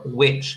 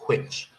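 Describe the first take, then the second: First: It starts with a plain w, no air. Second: It starts with a breathy w, air released. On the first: The speaker calls it wrong. "they just do the W sound without the H" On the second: The speaker calls it right. "let some air out"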